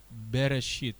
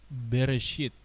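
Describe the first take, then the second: Both takes have the same delivery.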